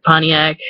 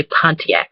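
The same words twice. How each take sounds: First: "Pontiac" as PAH-nee-ack; dropped T. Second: "Pontiac" as PON-tee-ack; pronounced T. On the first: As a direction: skip the t in Pontiac. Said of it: "Michiganders don't pronounce T". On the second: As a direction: put a clear t into Pontiac. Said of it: "I can't even, like, make myself". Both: Shown as a demonstration.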